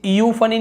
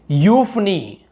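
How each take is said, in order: First: यूफनी with an extra "i" at the front; over-syllabled यूफनी as counter-example; mistaken reading. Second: यूफनी beginning with a plain "yoo"; यूफनी stretched on the first syllable, then falling; model pronunciation. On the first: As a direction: say यूफनी as "ee-yoo-fa-nee". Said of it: "हम इसे यूफनी नहीं बोल रहे". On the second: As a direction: say यूफनी as "YOOF-nee". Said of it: "यू बस बोल रहे". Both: Shown as a demonstration.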